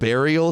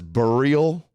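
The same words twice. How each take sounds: First: The word is pronounced in the usual way. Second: The word is pronounced in an unusual way. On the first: The speaker calls it right. "Instead of burial" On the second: The speaker calls it wrong. "she says burial"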